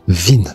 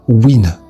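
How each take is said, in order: First: The word begins with a V sound. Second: The word begins with a W sound.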